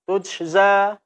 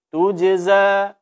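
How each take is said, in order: First: The jim is released loosely, sounding like sh. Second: The jim is a firm, held j sound. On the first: The speaker calls it wrong. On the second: The speaker calls it right.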